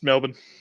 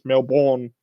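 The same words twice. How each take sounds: First: The second syllable is short and reduced. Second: The second syllable is a full 'born'. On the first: This is how locals say it. The speaker calls it right. "It's Melbourne" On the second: This is how Americans say it. The speaker calls it wrong. "they can only ever say it as Melbourne. You watch Jason Bourne once and you think it's pronounced that"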